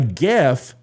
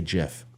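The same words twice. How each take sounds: First: The word begins with a hard G sound. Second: The word begins with a J sound. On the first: The speaker calls it right. "A GIF is how you say it" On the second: The speaker calls it wrong. "You don't say GIF"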